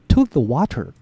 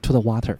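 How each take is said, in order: First: The phrase is said at a slower pace. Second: The phrase is said at a faster pace.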